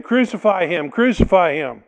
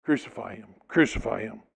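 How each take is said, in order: First: Building shout of crucify him; louder and louder. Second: Chanted, softer, lower crucify him; quiet menacing chant; hushed chant. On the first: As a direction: let the mob's cry swell. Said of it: "Getting louder and louder". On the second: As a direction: murmur the mob's chant. Mob chant, hushed retelling. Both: Acted.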